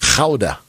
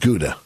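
First: The word has a Dutch-style pronunciation. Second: The word has an English-style pronunciation. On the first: The speaker calls it right. "It's Gouda" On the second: The speaker calls it wrong. "they don't pronounce it Gouda"

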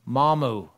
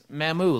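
First: The name does not rhyme with Shamu. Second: The name rhymes with Shamu. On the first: The speaker calls it wrong. "mispronounces everything" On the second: The speaker calls it right. "like Shamu"

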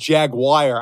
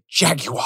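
First: The word is said with an American accent. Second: The word is said with a British accent. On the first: "instead of saying Jaguar" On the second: "say it like a British people"

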